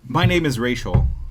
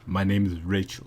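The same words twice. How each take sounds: First: It is said in her normal voice. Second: It is said in a deeper voice.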